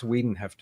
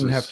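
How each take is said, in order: First: The first vowel sounds like 'ee'. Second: The first vowel sounds like 'eye'. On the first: The speaker calls it right. "it's Wiedenheft in German" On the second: The speaker calls it wrong.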